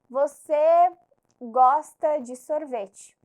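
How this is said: It is said with the tune of a statement. It asserts that the listener likes ice cream. "Eu tô afirmando"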